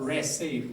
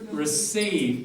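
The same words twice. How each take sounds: First: The first vowel is a full vowel. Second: The first vowel is reduced to a schwa. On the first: The speaker calls it wrong. "not receive" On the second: The speaker calls it right. "Receive, not receive"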